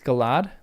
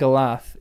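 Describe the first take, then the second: First: The final th is voiced, as in these. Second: The final th is voiceless, as in thin. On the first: The speaker calls it right. "it should be the T H in these" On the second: The speaker calls it wrong. "You're saying the T H in thin"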